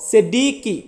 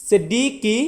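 The two takes are said the same way.

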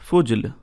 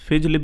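First: The first vowel sounds like 'u'. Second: The first vowel sounds like 'i'. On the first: "अगला वर्ड है फुजल" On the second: "इसको फिजल भी प्रोनाउंस करते हैं"

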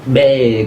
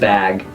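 First: The vowel is raised, sounding close to 'ay'. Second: The vowel is a plain open 'a' sound. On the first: "putting yourself between two different vowels" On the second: "just bag"

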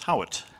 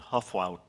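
First: The name is said like 'Howitt'. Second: The name is said like 'Huffwout'. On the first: The speaker calls it right. "how to pronounce the middle name" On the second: The speaker calls it wrong. "I probably had said Huffwout many times"

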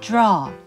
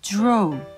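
First: American accent, mouth kept open throughout. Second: British accent, lips rounding toward an O.

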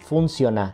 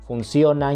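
First: The stress is on the first syllable. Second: The stress is on the second syllable.

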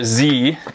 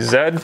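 First: The letter is said as zee, American style. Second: The letter is said as zed.

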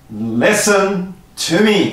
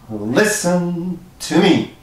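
First: It is projected loudly to a far audience. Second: It is said at a normal volume.

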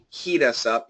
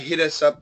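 First: The first vowel is a long e sound. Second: The first vowel is a short i sound. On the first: The speaker calls it right. "I want more E" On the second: The speaker calls it wrong. "it sounded more like a short I"

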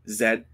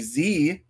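First: The letter is said as 'zed'. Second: The letter is said as 'zee'.

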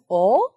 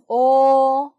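First: The pitch rises like a question. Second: The pitch stays high and level. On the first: "이성" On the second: "일성"

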